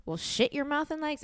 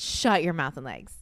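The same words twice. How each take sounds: First: "shit" said in place of shut; misread word. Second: "shut" said with an uh vowel, lower; corrected word. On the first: Reading his notes aloud, misread word. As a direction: read out "shit your mouth", higher. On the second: Correcting the misreading of his notes, corrected word. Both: Real, not acted. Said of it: "It's shut your mouth and legs".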